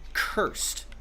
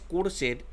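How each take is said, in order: First: The first consonant has a puff of air. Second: The first consonant has no puff of air. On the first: The speaker calls it right. "Hay aspiración en la, en la C en inglés" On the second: The speaker calls it wrong. "no es cursed en inglés"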